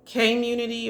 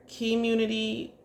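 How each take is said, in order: First: "K-munity" with first syllable like the letter K; first pronunciation. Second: "Key-munity" with first syllable like "key"; alternative pronunciation. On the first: Host guessing at a name's pronunciation, "K-munity" said as kay-munity. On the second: Host offering another guess at a name, "Key-munity" said as kee-munity. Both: Shown as a demonstration. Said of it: "I believe it's pronounced".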